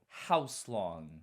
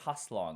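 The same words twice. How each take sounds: First: It is said with an added w sound. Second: It is said plainly without an added w sound. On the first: "He adds a W" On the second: "like the rest of us"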